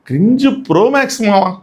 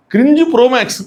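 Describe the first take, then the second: First: Said in the usual way. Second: cringe punched, pitched higher, falling away; emphatic repeat. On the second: Real, not acted. Vlogger judging the couple, emphatic cringe. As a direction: hit cringe hard on the repeat.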